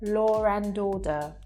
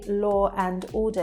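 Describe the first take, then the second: First: An r sound links law to and. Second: No r sound links law to and. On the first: The speaker calls it right. "there will be an intruding R there. We would say law and order" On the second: The speaker calls it wrong. "we won't say law and order. It's just not natural"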